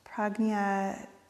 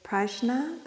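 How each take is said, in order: First: It is said with a Sanskrit pronunciation. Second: It is said with a North American accent.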